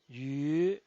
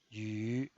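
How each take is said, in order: First: The pitch rises from mid to high. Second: The pitch dips low, then rises. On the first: "El segundo tono es ascendiente" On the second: "desciende primero ... para ascender luego"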